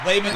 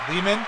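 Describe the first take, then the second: First: The first syllable sounds like 'lay'. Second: The first syllable does not sound like 'lay'. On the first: The speaker calls it right. "Think of lay, like in layman" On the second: The speaker calls it wrong. "Did I say it right?"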